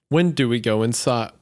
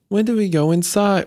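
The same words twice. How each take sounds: First: It is said in a voice that is not childlike. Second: It is said in a childlike voice.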